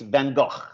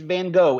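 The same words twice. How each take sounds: First: The name has a Dutch-style pronunciation. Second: The name has a plain English pronunciation. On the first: This is how it is said in Northern Europe. "In Holland, well, in, in Northern Europe, Belgium as well, it's Van Gogh" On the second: This is how it is said at home. "We live here. It's it's Van Gogh"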